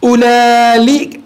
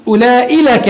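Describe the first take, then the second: First: أولئك stretched slowly, with the added lam dragged as ulali; slow demo of a forbidden form; slowly drawn out. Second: Said in the usual way. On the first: Shown as a demonstration. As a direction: spell out the wrong أولئك slowly for the class. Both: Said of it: "فلا يجوز أن تقول".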